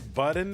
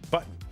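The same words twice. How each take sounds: First: The middle T is clearly pronounced. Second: The middle T is replaced by a glottal stop. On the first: This is how many other people say it. "I know a lot of people say button" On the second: This is how the speaker says it. "I say button. Like I don't I don't actually say the T"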